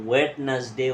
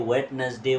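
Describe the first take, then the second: Both takes have the same delivery.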